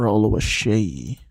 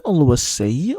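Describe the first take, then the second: First: Oluwaseyi with sh, "-SHAY"; sh pronunciation. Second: Oluwaseyi with a plain s, "-SAY"; s pronunciation. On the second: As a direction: say the end of Oluwaseyi like English "say". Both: Shown as a demonstration. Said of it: "Is it Oluwaseyi or Oluwaseyi?".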